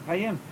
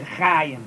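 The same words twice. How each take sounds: First: Chayim as cha-YIM, stress on the last syllable; short CHA, accented YIM in Chayim; correct final stress. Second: Chayim as CHAA-yim, first syllable stretched; slow CHAA-yim, accent too early; wrong first-syllable stress. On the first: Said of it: "the word is Chayim". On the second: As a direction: lean hard on the CHA of Chayim. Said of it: "There's no word Chayim". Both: Shown as a demonstration.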